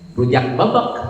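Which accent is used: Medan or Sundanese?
Sundanese. It is said in a Sundanese accent. It names rujak pounded in a mortar. "Lamun orang Sunda kan"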